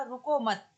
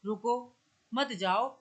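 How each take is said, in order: First: "रुको मत" run together with no break; शब्द एक साथ. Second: "रुको", a clear pause, then "मत जाओ"; रुको के बाद विराम. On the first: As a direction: join "रुको" and "मत" into one command. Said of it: "इन दोनों शब्दों को एक साथ बोल दिया". ("रुको मत" बिना विराम, एक साँस में) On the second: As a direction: stop on a rising "रुको" before saying "मत जाओ". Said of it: "अपनी ध्वनि को विराम दे दिया". ("रुको" पर विराम देकर "मत जाओ") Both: Shown as a demonstration.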